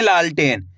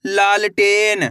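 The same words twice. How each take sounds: First: Said in the usual way. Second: लालटेन stretched out slowly, syllable by syllable; लालटेन slowly drawn out; slow blended word. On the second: Shown as a demonstration. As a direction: draw out लालटेन so each part is heard. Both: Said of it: "कैसे पढ़ेंगे?".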